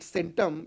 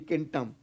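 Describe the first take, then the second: First: The word begins with an S sound. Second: The word begins with a K sound. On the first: This is how it is said today. "now we call it centum in Latin" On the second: This is how it was originally said. "in original Latin pronunciation it, it used to be centum"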